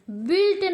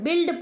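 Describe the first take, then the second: First: बिल्ट with U sounded as a w glide, "bwilt"; wrong pronunciation. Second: बिल्ड as "bild", no glide; silent U. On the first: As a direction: add a glide after B in बिल्ट. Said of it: "बिल्ट नहीं पढ़ते". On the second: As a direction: go from B straight to short i in बिल्ड. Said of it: "बिल्ड पढ़ते हैं". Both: Shown as a demonstration.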